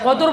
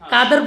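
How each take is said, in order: First: It starts with a deep, back q sound. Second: It starts with a light, front k sound. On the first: The speaker calls it right. "কদর বললে কোন কোন কাপ? বড় cup." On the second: The speaker calls it wrong. "কাদের বললে ছোট কাপ"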